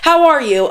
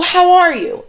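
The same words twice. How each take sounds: First: It sounds quick and offhand, a mere formality. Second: It sounds warm and sincerely interested. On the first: The speaker does not care about the answer. The speaker calls it wrong. "I'm not just like" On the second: The speaker really wants to know the answer. The speaker calls it right. "I say it in a way where I genuinely mean it"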